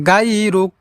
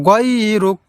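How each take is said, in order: No difference in how they are said.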